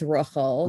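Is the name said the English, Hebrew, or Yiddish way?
Yiddish. The name is said with a Yiddish pronunciation. "in Yiddish, it's Rachel"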